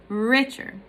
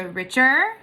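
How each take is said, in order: First: "richer" with a strong RICH and a light ending; stress on first syllable. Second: "richer" wrongly weighted on the final CHER, rising; stress on second syllable. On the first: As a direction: lean on the start of "richer". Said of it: "stressed, unstressed". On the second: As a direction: push the end of "richer" as a question. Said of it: "or would you go". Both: Shown as a demonstration.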